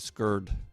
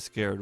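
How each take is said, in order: First: It is said with a Baltimore pronunciation. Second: It is said with a standard pronunciation.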